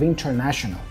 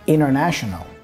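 First: The T is clearly pronounced after the N. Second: The T is dropped after the N. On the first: "instead of" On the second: "drop the T and pronounce the N before"

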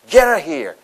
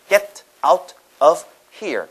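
First: The words run together with reduced sounds. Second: Each word is pronounced separately and clearly. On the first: The speaker calls it right. "보통" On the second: The speaker calls it wrong. "또박또박 읽으면은"

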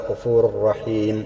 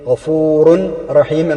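First: The n merges fully into a doubled r. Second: The n is pronounced separately before the r. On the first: "തെൻവിന് ശേഷം റ വന്നാലും അതേപോലെ തന്നെ മണിക്കലില്ലാതെ ഇദ്ഗാം ചെയ്യുക" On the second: "തൻവീനാണ് ഗഫൂറുൻ"

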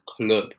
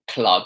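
First: The word is said in an imitated regional accent. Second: The word is said in a neutral accent. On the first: This is how the quoted speaker says it. "He pronounces it as club" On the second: This is not how the quoted speaker says it. "Not club. He doesn't pronounce it as club"

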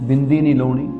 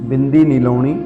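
No difference in how they are said.

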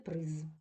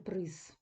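First: The final consonant is voiced. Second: The final consonant is voiceless. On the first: The speaker calls it right. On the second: The speaker calls it wrong.

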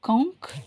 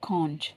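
First: The word ends with a k sound. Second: The word ends with a ch sound. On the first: "காங்க் American English" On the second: "கான்ச்ன்றது British English"

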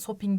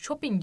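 First: The word begins with a plain s sound. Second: The word begins with an sh sound. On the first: The speaker calls it wrong. "İngilizce'de de shopping demiyoruz" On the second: The speaker calls it right. "Shopping diyoruz"

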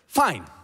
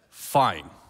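First: The word is said at a very high pitch. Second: The word is said at a lower pitch. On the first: Things are as far from fine as possible. "the higher pitch the tone, the less things are fine" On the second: She will let things play out into a disaster. "that's more of, okay, let's see how this thing plays out"

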